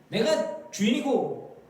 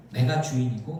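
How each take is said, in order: First: Slow, raised-pitch assertion of authority; mock self-appointed master; bossy master. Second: Said in the usual way. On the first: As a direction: lord it over a servant, slowly. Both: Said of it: "그거는 종의 자세가 아니죠".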